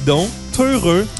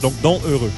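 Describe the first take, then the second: First: The two words are linked with a liaison. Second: The two words are said without a liaison. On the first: The speaker calls it wrong. "j'ai fait une mauvaise liaison" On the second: The speaker calls it right. "parce qu'il y a un H"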